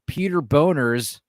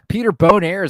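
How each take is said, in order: First: The name ends with a plain 'ners' sound. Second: The name ends with an 'airs' sound. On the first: "it's pronounced Boners ... It's pronounced how it's spelled" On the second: "Maybe it's Bone Airs"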